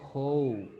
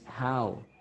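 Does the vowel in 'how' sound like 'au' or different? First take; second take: different; au. First: The vowel is not said as 'au'. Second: The vowel is said as 'au'. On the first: The speaker calls it wrong. "It is not how" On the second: The speaker calls it right. "la pronunciación va a ser au"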